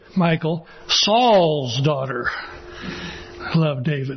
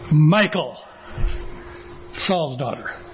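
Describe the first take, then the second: First: The stress is on Saul's. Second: The stress is on Michal.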